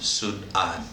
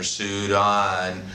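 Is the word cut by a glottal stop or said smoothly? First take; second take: glottal stop; smoothly. First: A glottal stop breaks the word in the middle. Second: The word flows smoothly with no break inside. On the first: The speaker calls it right. "there's a Sud and your vocal cords constrict, and then a an" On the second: The speaker calls it wrong. "instead of saying Sudan or Sudan"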